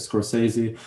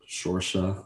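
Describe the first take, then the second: First: The name starts with an 'sk' sound. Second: The name starts with an 'sh' sound.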